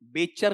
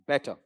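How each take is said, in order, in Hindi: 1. बीच का व्यंजन पूरा ch जैसा लगता है। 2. बीच का व्यंजन t और ch के बीच पड़ता है। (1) "बेचर नहीं" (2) "लगभग ट और च के बीच का साउंड लो"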